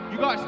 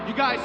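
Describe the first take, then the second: No difference in how they are said.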